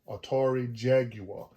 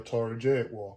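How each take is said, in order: First: Jaguar is said the way some people say it. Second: Jaguar is said with a Southern US accent.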